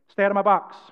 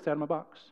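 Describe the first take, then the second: First: It is said a little louder. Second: It is said softly and plainly.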